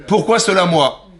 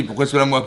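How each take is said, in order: First: Higher, clumsy word-for-word French; broken French. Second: Said in the usual way. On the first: Shown as a demonstration. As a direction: stress "Pourquoi" in stiff broken French. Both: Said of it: "C'est pas comme ça qu'on dit".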